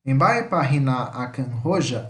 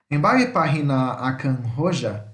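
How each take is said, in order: First: "Embae pahina akan roja" said slowly again, the H sounded; slow repeat for the class to copy; Guarani pronunciation repeated. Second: "Embae pahina akan roja" said slowly, the H breathed out; slow, careful model phrase with an audible H in "pahina" and "roja"; Guarani pronunciation. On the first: Teacher repeats the Guarani phrase for students, slowly. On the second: Teacher models a Guarani phrase for students, slowly. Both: Shown as a demonstration. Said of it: "O H tem som em Guarani".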